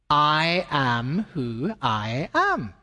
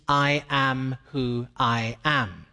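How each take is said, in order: First: Very slow, each word weighted; slow solemn emphasis. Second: Each word slow and weighty; I am who I am, slowly and solemnly; slow solemn reading. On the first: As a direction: let I am who I am land slowly. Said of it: "Here's the reason coming on". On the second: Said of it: "that name means". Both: Shown as a demonstration.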